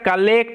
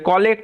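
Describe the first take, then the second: First: The first syllable has an open 'ka' vowel. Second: The first syllable has a rounded 'ko' vowel. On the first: The speaker calls it right. "এটার উচ্চারণটা কালেক্ট হবে" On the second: The speaker calls it wrong. "কলেক্ট হবে না"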